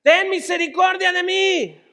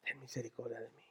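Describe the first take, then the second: First: High, loud plea; desperate shout. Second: Very soft, low, near-whispered prayer; hushed plea. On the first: Blind Bartimeo begging Jesús for mercy, desperate shout. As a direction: cry out for mercy at full voice. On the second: Preacher echoing Bartimeo's cry for mercy, hushed plea. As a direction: beg under your breath. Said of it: "Bartimeo que grita". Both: Acted.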